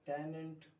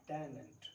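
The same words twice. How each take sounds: The two takes are said the same way.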